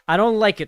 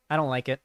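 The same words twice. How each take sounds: First: "I don't like it" louder, with punch on "don't"; emphatic repeat. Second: Said in the usual way. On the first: Real, not acted. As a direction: hit "don't" hard the second time. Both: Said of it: "I don't like it, chat".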